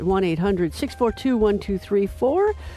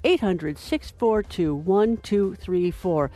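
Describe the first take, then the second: First: The number is said at normal, quicker speed. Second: The number is said slowly.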